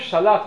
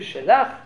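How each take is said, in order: First: The first syllable has a full a vowel. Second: The first consonant has a reduced vowel. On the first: This is the Hebrew way of saying it. "במקום שלח" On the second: This is the Aramaic way of saying it. "אומרים שלח, שין בשווה למד בפתח"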